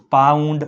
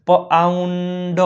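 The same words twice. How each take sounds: First: Said in the usual way. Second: પાઉન્ડ drawn out in parts, પ-આઉન-ડ; teacher slowly sounding out પાઉન્ડ; sounded out. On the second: Shown as a demonstration. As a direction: stretch પાઉન્ડ slowly on a held note. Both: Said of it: "તેનો ઉચ્ચાર આવ થાય છે".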